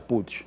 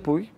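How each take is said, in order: First: The name is said with Catalan pronunciation. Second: The name is said with local Spanish pronunciation. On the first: This is how it is said in the original language. "en catalán se pronuncia Puig" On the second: This is how people here say it. "todo el mundo aquí dice Puig"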